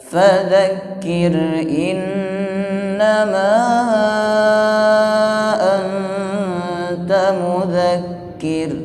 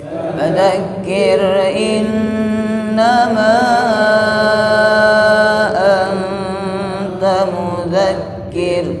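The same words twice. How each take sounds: Both takes have the same delivery.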